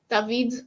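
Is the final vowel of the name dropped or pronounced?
dropped. The name ends without a final vowel sound. The speaker calls it right. "you don't really say the e as much"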